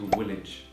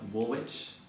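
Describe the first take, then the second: First: The name is said unlike its written spelling. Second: The name is said following its written spelling. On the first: The speaker calls it right. "it's actually Woolwich" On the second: The speaker calls it wrong. "many people call it Woolwich"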